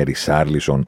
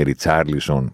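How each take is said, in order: First: Ρισάρλισον with plain "s", no "t"; S in the name. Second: Ριτσάρλισον with a "ts" sound after Ri; TS in the name. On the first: Podcaster mocking name rules, plain S in Ρισάρλισον. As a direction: say Ρισάρλισον as "Ri-SAR-lison". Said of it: "δεν θα τον πούμε Ριτσάρλισον". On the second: Podcaster mocking name rules, TS in Ριτσάρλισον. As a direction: say Ριτσάρλισον as "Rit-SAR-lison". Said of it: "σωστή προφορά Ριτσάρλισον". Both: Shown as a demonstration.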